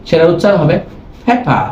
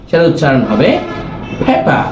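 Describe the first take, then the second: The two takes are said the same way.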